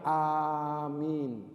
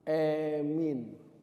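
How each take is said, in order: First: The first vowel is a long a sound. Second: The first vowel is fronted toward e. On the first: "Yang paling masyhur mengucapkannya"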